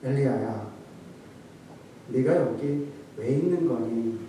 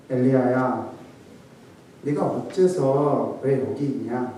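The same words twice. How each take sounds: First: Soft, low pitying question; sorrowful tenderness. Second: Gentle lament. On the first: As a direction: ask him gently, full of pity. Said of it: "라고 말했을까요". (낮고 부드럽게 안타까워하며) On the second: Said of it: "이렇게 했겠습니까". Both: Shown as a demonstration.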